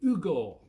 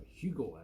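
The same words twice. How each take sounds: First: "Ugo" said without the H, as oo-go; Italian-style name. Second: Said in the usual way. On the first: Shown as a demonstration. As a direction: drop the H in "Ugo", oo-go. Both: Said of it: "as we say in Scotland".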